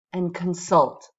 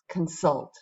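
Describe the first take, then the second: First: Consult, stressed on the second syllable with a fall; modelling consult for the class; model word with falling tune. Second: Consult, repeated softer with a short fall, stress on sult; second take of consult; softer repetition. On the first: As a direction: say consult clearly, stress on sult. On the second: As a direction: echo consult gently. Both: Shown as a demonstration. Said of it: "Let's just say these words out loud".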